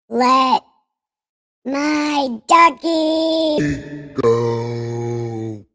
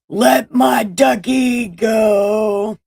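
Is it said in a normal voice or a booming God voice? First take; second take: God voice; normal. First: It is said in a booming God voice. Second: It is said in a normal voice.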